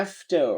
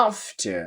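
First: American "after" with AE and final R; American accent. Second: British "after" with open AH, no final R; British accent. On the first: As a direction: say "after" American style, AF-ter. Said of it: "American বলছে". (American উচ্চারণে) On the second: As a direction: say "after" British style, AHF-tuh. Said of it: "ব্রিটিশে বলছে". (British উচ্চারণে) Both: Shown as a demonstration.

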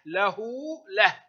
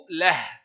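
First: له closed on a vowelless ha, "lah"; pausal ending. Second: له with its final ha voweled, "lahu"; voweled ending. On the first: Teacher showing pupils the stop, pausal h on له. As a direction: say له as "lah", stopped on h. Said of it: "وتنطق هاء عند الوقف". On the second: Teacher showing pupils the moving ha, voweled ending on له. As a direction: say له as "lahu", ha carrying an u. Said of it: "الهاء تنطق هاء في الحركة". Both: Shown as a demonstration.

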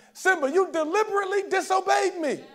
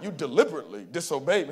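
First: High, raised first try at a scolding father; Mufasa scolding. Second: Deep, manly scolding voice; James Earl Jones. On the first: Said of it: "it's the voice of James Earl Jones". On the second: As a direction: drop low into a stern, commanding father's rebuke. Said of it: "It's that deep, manly voice". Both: Retold or imitated.

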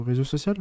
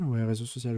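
First: "Réseau social?" asked with a rising, unsure tune on "social"; questioning rise. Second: "réseau social" said softly with a falling, confirming tune; settled statement. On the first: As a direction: test "Réseau social?" as a doubtful question, pitch up at the end. ("Réseau social?" dit en question, montée sur "social") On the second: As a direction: conclude "Ouais, réseau social" quietly and falling. ("Ouais, réseau social" affirmé, intonation descendante) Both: Real, not acted. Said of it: "Réseau social ou sociaux?".

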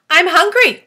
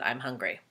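First: Booming high demand, much louder; loud hungry spider. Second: Soft quiet echo. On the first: Acted. Spider announcing to James she wants food, booming. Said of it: "the spider announced". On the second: Shown as a demonstration. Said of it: "if a giant spider said".

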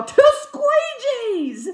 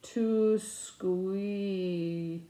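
First: High, loud, drawn-out triumphant yell. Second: Slowly drawn-out, puzzled reading; slow sounding-out. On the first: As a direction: shout it out as a sudden revelation. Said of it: "I yell in the checkout aisle". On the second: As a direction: stretch each word as you work it out. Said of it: "and I say it slower". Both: Retold or imitated.

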